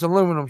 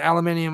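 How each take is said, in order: First: The word ends with a plain '-um' syllable. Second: The word ends with an extra '-ee-um' syllable. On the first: The speaker calls it right. "it's aluminum" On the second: The speaker calls it wrong. "Red Eye will say aluminium"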